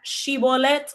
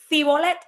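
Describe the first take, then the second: First: The word begins with a sh sound. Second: The word begins with an s sound. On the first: The speaker belongs to the accepted group. The speaker calls it right. "Si ellos podían decir la palabra Shibolet correctamente" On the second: The speaker belongs to the rejected group. The speaker calls it wrong. "Pero si no, y decías Cibolet"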